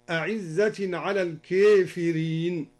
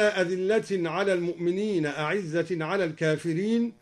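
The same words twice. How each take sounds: First: الكافرين with the long a leaned toward e, as kefirin; imala reading. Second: Said in the usual way. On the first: Shown as a demonstration. Teacher showing students the imala in الكافرين. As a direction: lean the a of الكافرين into e. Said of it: "أمل الكافرين هكذا". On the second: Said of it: "قوله تعالى".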